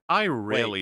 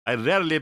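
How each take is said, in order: First: It is read in the speaker's ordinary accent. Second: It is read with a put-on French accent.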